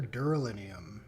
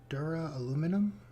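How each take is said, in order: First: The word is said as 'dura-linium'. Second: The word is said as 'dura-aluminum'. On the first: The speaker calls it wrong. "I definitely didn't pronounce that right" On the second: The speaker calls it right. "Probably uh, something in and around that"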